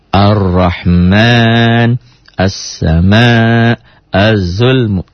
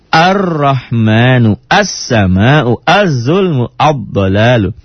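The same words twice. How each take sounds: First: Very slow "Ar-Rahman, as-sama', az-zulmu", doubled letters held smoothly; fluent recitation of "Ar-Rahman, as-sama', az-zulmu" without any punch; smooth, no jolt. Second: Slow "Ar-Rahmanu, as-sama'u, az-zulmu, ad-dalalu", each doubled consonant hit hard; jolted practice reading. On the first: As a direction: ease into each long consonant of "Ar-Rahman, as-sama', az-zulmu". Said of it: "Ada hentakan? Tidak ada". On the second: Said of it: "Kok dihentak? Ini kan lagi latihan". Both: Shown as a demonstration.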